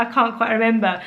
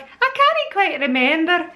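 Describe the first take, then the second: First: Said in the usual way. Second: Higher, slow mock-Scottish accent; imitated Scottish friend. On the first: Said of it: "I've got a Scottish friend". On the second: Mimicking a Scottish friend, exaggerated Scottish accent. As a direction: draw it out in put-on Scottish. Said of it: "that's what he would say".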